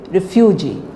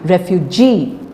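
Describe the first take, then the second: First: The main stress falls on the first syllable. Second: The main stress falls on the last syllable. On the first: The speaker calls it wrong. "Please don't say refugee" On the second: The speaker calls it right. "It is ref refugee"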